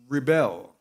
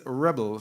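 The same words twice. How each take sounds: First: "Rebel" as the verb, stress on the second syllable, ri-BEL. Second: "rebel" as the noun, stress on the first syllable, REB-el. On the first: Preacher teaching the congregation the verb: "Rebel" stressed re-BEL. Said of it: "which is a verb". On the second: Preacher contrasting the noun for the congregation: "rebel" stressed REB-el. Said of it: "The noun is rebel". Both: Shown as a demonstration.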